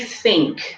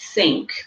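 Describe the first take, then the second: First: The word is said in a London-style way. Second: The word is said in a standard way. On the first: The speaker calls it wrong. "if I say think … even some Londoners do" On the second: The speaker calls it right. "and not think"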